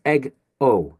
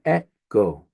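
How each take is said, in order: First: "egg-o" with g closing the first syllable; split after g. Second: "e-go" with an open short e, then go; split after vowel. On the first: Teacher shows students the wrong split, "egg-o" broken after the g. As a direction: say "egg", break, then "o". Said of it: "but that would be wrong". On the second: Teacher shows the correct split, "e-go" broken before the g. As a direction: say "eh", break, then "go". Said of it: "It's gonna be e-go". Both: Shown as a demonstration.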